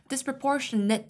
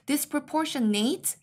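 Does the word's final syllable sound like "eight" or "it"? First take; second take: it; eight. First: The final syllable sounds like "it". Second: The final syllable sounds like "eight". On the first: The speaker calls it right. "이렇게 해서 it 발음으로 끝내주셔야 돼요" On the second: The speaker calls it wrong. "이렇게 읽으시면 안 돼요. ate를 eight라고 읽는 거는"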